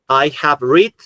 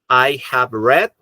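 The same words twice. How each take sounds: First: The verb sounds like 'reed' with a long vowel. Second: The verb sounds like 'red' with a short vowel. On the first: The speaker calls it wrong. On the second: The speaker calls it right.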